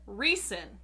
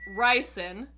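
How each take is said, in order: First: The first vowel sounds like 'ree'. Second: The first vowel sounds like 'rye'. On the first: The speaker calls it right. "the correct pronunciation is in fact the short Reese and" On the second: The speaker calls it wrong. "apparently we have been saying Rice's name wrong"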